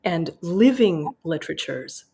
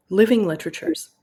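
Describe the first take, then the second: First: Said in the usual way. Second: Living lifted higher, with a rise; stress on living. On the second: Shown as a demonstration. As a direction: lean hard on the word living. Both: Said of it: "a word that he puts in italics".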